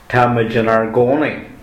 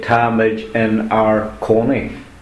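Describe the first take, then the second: First: The last word begins with a G sound. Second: The last word begins with a K sound. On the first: The speaker calls it right. "So you have to say" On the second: The speaker calls it wrong. "it would be wrong to say"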